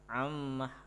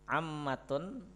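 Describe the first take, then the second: First: The word ends with a soft h sound. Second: The word ends with a full -tun sound. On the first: The reader stops after the word. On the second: The word is read on without stopping.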